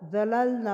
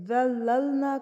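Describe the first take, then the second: First: ذللنا said as dalalna, with no doubled lam; ذللنا with the shadda left out; dropped tashdid. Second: ذللنا read slowly with the doubled lam held; ذللنا with a clear shadda on the lam; correct tashdid. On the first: (غلط ذللنا، شد چھوڑ کر) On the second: (درست ذللنا، لام پر شد کے ساتھ) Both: Shown as a demonstration. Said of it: "ذللنا پڑھ دینا".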